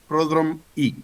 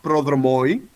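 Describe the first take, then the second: First: The word ends with an 'ee' sound. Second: The word ends with an 'oy' sound. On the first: The speaker calls it right. "pronounced as the flat I" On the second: The speaker calls it wrong. "not oi, not prodromoi"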